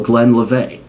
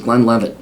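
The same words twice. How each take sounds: First: Glenlivet? said as glen-li-VAY with no final t; mock Glenlivet?, ending in a French-style vay; voice recorder mispronunciation. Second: Said in the usual way. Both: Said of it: "as my voice recorder likes to call it".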